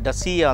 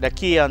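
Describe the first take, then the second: First: The middle consonant is an s sound. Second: The middle consonant is a k sound. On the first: "ಡಸಿಯಾ ಅಂತ ಹೇಳ್ತಾರೆ" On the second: "ಡಕಿಯಾ ಅಂತ ಹೇಳ್ತಾರೆ"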